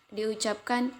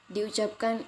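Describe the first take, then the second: The two takes are said the same way.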